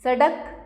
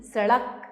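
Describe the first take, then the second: First: सड़क as sadak with a hard d; सड़क without the flap. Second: Said in the usual way. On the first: Shown as a demonstration. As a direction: stop the tongue on d in सड़क. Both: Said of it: "सड़क नहीं".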